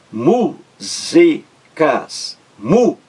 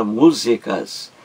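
First: "músicas" sílaba por sílaba, com MÚ mais alto e pausas longas; separação silábica. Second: Said in the usual way. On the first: Shown as a demonstration. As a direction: separe "músicas" em mú, zi, cas, destacando o MÚ. ("músicas" escandido devagar, em três sílabas) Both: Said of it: "três sílabas".

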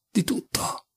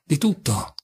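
First: Breathy whisper, voice dropped away; whispered repeat. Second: Said in the usual way. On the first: Acted. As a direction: let the repeat fall into a whisper. Ripete la frase sussurrando. (ripetuto in un sussurro)

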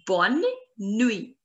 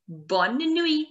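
First: Bonne and nuit set apart by a pause; word by word. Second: Said in the usual way. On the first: Shown as a demonstration. Teacher repeats good night for learners, Bonne nuit in two pieces. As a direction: split Bonne nuit into two careful words.

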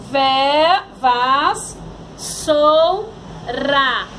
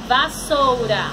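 First: "vas, sou, ra" as loud isolated syllables; sílabas separadas. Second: "Vassoura" as one whole word; palavra juntada. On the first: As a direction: leave a gap after each piece of "vas, sou, ra". ("vas, sou, ra" sílaba por sílaba, forte) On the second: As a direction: join the syllables of "Vassoura". ("Vassoura" dito como palavra inteira) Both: Shown as a demonstration. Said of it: "separação de palavras".

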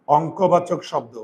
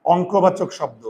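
First: Slow repeat. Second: Said in the usual way. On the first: Shown as a demonstration. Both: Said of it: "সেটা হচ্ছে".

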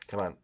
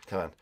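No difference in how they are said.

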